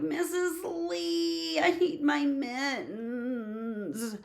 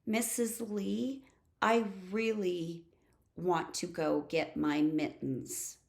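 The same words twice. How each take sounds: First: High, slow, drawn-out whine; exaggerated pleading whine; whining. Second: Said in the usual way. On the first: Shown as a demonstration. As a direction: wail it like a whiny child, dragging every word. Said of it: "Instead of". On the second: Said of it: "this is the way I want you to ask".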